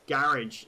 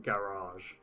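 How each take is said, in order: First: GARAGE as GARR-idj; working-class pronunciation. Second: GARAGE as GA-rahzh, slow long A; posh pronunciation. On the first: Streamer explaining English class differences, working-class pronunciation demo. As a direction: say GARAGE with a short IDJ ending. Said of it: "working class way of pronouncing it". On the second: Streamer showing how the Queen would say it, posh pronunciation. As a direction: say GARAGE the posh way, ending AHZH. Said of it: "the Queen would pronounce it". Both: Shown as a demonstration.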